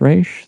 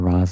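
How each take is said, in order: First: The name begins with a 'raysh' sound. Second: The name begins with a 'rahz' sound. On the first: The speaker calls it right. "it's pronounced Raish" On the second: The speaker calls it wrong. "which bothers me to this day that they say Ra's al Ghul"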